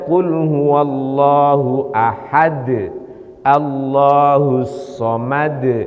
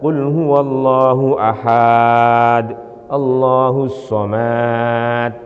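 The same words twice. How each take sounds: First: The word ahad is kept short. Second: The word ahad is drawn out long. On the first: The speaker calls it right. "ahad enggak ada huruf matnya" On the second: The speaker calls it wrong. "ini namanya dipukul rata"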